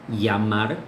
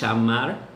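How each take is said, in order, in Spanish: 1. La doble L suena como una y. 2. La doble L suena cerca de ch. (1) "en algunas regiones la doble L se, se, pronuncia como una I" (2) "En la región rioplatense, en Uruguay, en Argentina, es parecido a C H"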